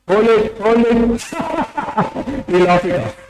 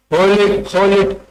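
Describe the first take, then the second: First: Higher "hold it, hold it" then a laugh that lets the breath out; held breath burst into laughter. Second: Said in the usual way. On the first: Shown as a demonstration. Teacher showing the laughter yoga breath, ending in a laugh. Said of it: "But in Laughter Yoga". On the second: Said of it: "that is normal".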